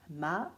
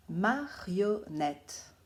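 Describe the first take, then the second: First: Said in the usual way. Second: Marionnette said very slowly, syllable by syllable; slow, clear dictation to children. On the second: Shown as a demonstration. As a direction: spell out each syllable of Marionnette for the pupils. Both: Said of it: "il faudra bien les écouter".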